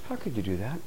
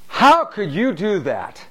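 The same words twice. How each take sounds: First: The tone is warm and genuinely curious. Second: The tone is accusing and blaming. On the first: The speaker sincerely wants to understand the choice. The speaker calls it right. "I really want to understand why you made that choice" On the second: The listener is accused of doing something wrong. The speaker calls it wrong. "One is the energy field of what's wrong with you"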